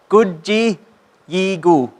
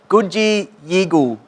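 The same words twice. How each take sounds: First: It is said slowly, sound by sound. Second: It is said at normal conversational speed.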